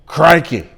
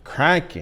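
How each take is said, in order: First: Loud hammed-up Australian "Crikey.", stretched with a falling tune; Australian accent. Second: "Crikey." in a light mock Australian accent, falling at the end; half-hearted Aussie "Crikey." practice take; Australian accent try. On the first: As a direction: belt out "Crikey." like a mock Aussie croc hunter. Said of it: "Insert your own Australian accent right there". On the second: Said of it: "I was practicing during the commercial break".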